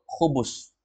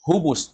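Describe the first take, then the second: First: "khubus" with a throaty KH; correct KH pronunciation. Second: "hubus" with a light H; colloquial pronunciation. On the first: Shown as a demonstration. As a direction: say "khubus" with rasped KH at the start. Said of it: "Tapi sebenarnya itu khubus". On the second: Retold or imitated. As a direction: say "hubus" starting with plain breathed H. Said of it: "Orang bilang hu, hubus".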